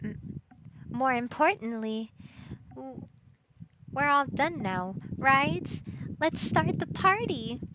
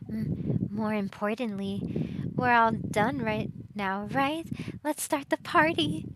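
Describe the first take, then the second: First: It is said in an Applejack impression. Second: It is said without an Applejack impression.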